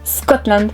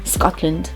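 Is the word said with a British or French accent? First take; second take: French; British. First: The word is said with a French accent. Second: The word is said with a British accent. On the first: "avec l'accent français" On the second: "avec l'accent un peu plus british"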